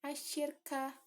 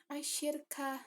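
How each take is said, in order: No difference in how they are said.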